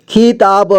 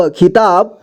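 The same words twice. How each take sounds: First: खिताब as खि-ता-ब; syllable by syllable. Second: Said in the usual way. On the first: Shown as a demonstration. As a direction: sound out खिताब in three parts. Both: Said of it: "एक ही बार में पढ़ेंगे".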